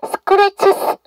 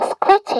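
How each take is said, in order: First: The plural ending is pronounced as an extra syllable. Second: The plural ending is dropped entirely. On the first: "scratches 이렇게 하지 않고" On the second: "그냥 scratch 했죠"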